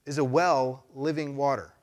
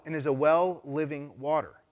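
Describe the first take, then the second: First: Slow, deliberate rhetorical question; slow pointed question. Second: Said in the usual way. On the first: Real, not acted. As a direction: let each word land slowly. Repeats question for emphasis.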